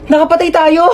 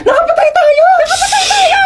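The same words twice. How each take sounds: First: Raised-pitch panicked exclamation; alarmed cry. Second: Very high-pitched screaming wail; hysterical panic. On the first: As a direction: let panic start to rise. Realising they have killed someone. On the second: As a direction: shriek it in full panic. Hysterics over having killed someone. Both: Acted.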